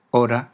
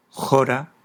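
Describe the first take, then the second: First: Said in the usual way. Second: Teacher reads the Greek example, jora with an initial jota sound; Greek aspirated H. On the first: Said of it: "como H". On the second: Shown as a demonstration. Teacher showing the Greek original, aspirated H in jora. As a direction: say "jora" opening on a rasped J sound. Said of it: "El espíritu áspero pasa generalmente".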